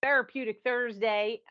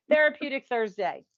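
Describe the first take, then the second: First: Said in the usual way. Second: A light, laughing Southern twang on Therapeutic Thursday. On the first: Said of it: "my Southern twang". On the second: Shown as a demonstration. Host greeting her Alabama co-host, in a mock Southern twang. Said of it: "putting on my, my Southern twang".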